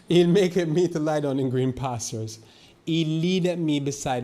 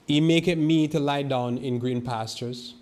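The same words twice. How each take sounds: First: Slow, higher and louder, swelling into the verse; louder scripture proclamation. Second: Slow, loud and ringing, like reading from the pulpit; loud scripture proclamation. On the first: Preacher rereads Psalm 23 to his flock, louder and higher. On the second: Preacher reads Psalm 23 aloud to the church, slow and loud. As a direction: proclaim the psalm slowly to the congregation. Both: Shown as a demonstration. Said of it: "It sounds so loud".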